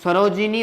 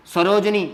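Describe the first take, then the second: First: सरोजिनी with a short i after j; correct form. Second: सरोजनी with no i after the j; wrong form. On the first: Teacher correcting the wrong word, सरोजिनी as sa-ro-ji-ni. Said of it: "सरोजिनी होता है". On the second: Teacher pointing out the wrong word, सरोजनी as sa-roj-ni. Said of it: "ये गलत हो गया". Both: Shown as a demonstration.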